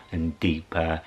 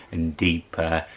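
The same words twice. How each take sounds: The two takes are said the same way.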